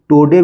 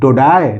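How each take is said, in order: First: It sounds like toe-day. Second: It sounds like toe-dye. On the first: "टोडे भी नहीं पढ़ेंगे" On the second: "टोडाय नहीं"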